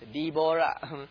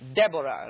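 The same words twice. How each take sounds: First: The name is said with Hebrew pronunciation. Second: The name is said with English pronunciation. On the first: "In the Hebrew, it's Deborah" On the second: "That's the English"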